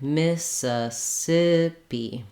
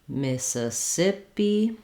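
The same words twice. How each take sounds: First: The word is said slowly, syllable by syllable. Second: The word is said at a medium speed.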